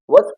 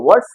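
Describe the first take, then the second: First: "वर्ड्स" ending in a voiced z, with no r heard; correct z ending, silent r. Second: "वर्ड्स" with a hissed s at the end; wrong s ending. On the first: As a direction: drop the र in "वर्ड्स" and end on ज. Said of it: "ज हो जाएगा". ("वर्ड्स" में र मूक, अंत में ज) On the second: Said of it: "स नहीं पढ़ा जाएगा". ("वर्ड्स" के अंत में स की ध्वनि) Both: Shown as a demonstration.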